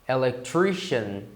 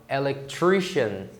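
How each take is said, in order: Both takes have the same delivery.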